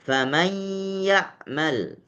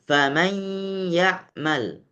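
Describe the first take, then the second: No difference in how they are said.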